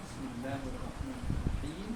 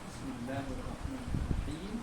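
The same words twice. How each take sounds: First: The long vowels are drawn out noticeably. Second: The same.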